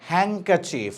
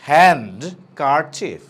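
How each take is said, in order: First: The d sound is left silent. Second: The d sound is pronounced. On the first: The speaker calls it right. "Silent ডি" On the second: The speaker calls it wrong. "Not হ্যান্ড কারচিফ"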